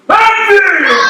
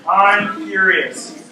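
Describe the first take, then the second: First: It is said with strong anger. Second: It is said calmly, without anger.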